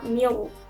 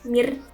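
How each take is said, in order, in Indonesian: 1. Bunyi r diucapkan tebal, lidahnya cekung. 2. Bunyi r diucapkan tipis, lidahnya datar.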